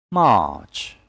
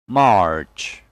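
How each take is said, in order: First: "March" with long "ah", silent R; British pronunciation. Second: "March" with the R sounded; American pronunciation. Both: Shown as a demonstration. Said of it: "And American English will be".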